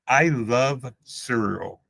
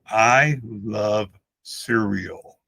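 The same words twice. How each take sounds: First: The words are said casually, without careful articulation. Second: Each word is articulated slowly and deliberately.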